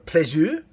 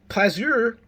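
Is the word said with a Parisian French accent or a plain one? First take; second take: Parisian; plain. First: The word is said with a Parisian French accent. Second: The word is said without a Parisian French accent.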